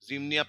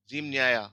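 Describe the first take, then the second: First: The middle vowel of the ending is a reduced 'i'. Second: The middle vowel of the ending is a full 'ya'. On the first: The speaker calls it right. "जिमनिया पढ़ेंगे" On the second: The speaker calls it wrong. "सो जिम न्याया नहीं है"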